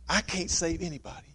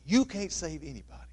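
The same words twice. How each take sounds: First: I leaned on at the start of "I can't save anybody."; stress on I. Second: "You" leaned on at the start of "You can't save anybody."; stress on you. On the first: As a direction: hit "I" to set it against "you". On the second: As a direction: hit "You" to set it against "I". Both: Shown as a demonstration. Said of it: "contrasting I and you".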